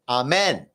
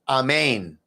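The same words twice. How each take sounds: First: The last syllable sounds like 'men'. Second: The last syllable sounds like 'main'. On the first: The speaker calls it wrong. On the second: The speaker calls it right.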